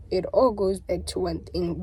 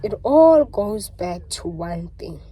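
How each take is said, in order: First: Said in the usual way. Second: "all" stretched out, slow and louder; slow, loud stress on "all"; slow emphatic. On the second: Real, not acted. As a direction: lean hard and slow on "all".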